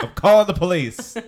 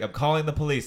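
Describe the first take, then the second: First: Very high, loud, laughing mock outrage; hammed-up horrified meme voice; Vine quote. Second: High, louder mock indignation; retelling the Vine line. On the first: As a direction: squeal the meme line. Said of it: "Remember that Vine?". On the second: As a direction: replay the meme with a touch of outrage. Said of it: "she's like".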